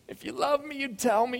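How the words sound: It is said in a whiny, complaining voice.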